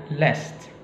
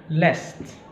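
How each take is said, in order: No difference in how they are said.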